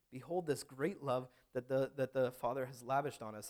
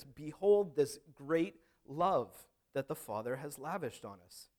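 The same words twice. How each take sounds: First: Said in the usual way. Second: Behold stretched slow and louder; solemn slow scripture reading; grand proclamation. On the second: Shown as a demonstration. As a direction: read it as a grand announcement. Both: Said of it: "as they're reading this".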